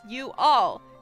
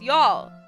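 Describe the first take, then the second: First: It is said slowly, as two words. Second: It is said fast, run together.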